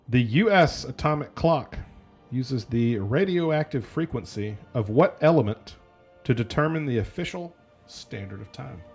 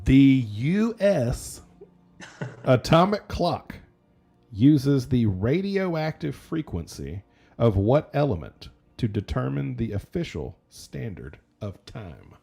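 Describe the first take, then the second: First: It is read at a normal speed. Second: It is read more slowly.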